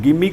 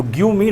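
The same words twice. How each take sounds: First: "Give me" run together as gimme; joined give me. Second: "Give me" as two distinct words, give then me; separate give me. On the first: Teacher showing students the better way, blended gimme. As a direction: glide "Give me" into one word. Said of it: "का प्रयोग करें". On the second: Teacher showing students what to avoid, split words. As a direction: pronounce "Give me" word by word. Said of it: "ना बोलकर". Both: Shown as a demonstration.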